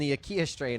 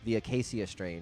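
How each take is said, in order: First: The name is said with three syllables, a-ki-a. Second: The name is said with four syllables, a-ca-ci-a. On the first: The speaker calls it wrong. "he's like, "Bro, we're gonna go see Emira and the Akia strain."" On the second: The speaker calls it right. "There you go. Good job"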